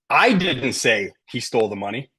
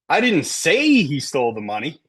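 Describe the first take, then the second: First: The stress falls on the word I. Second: The stress falls on the word say. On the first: Someone else said it, not me. "Maybe he stole the money, but somebody else said it, not me" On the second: It was communicated some other way, not spoken. "I texted it, right?"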